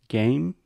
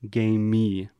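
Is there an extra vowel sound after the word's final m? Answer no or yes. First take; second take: no; yes. First: The word ends cleanly on the m. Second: An extra vowel sound follows the final m. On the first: The speaker calls it right. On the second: The speaker calls it wrong. "add this extra sound"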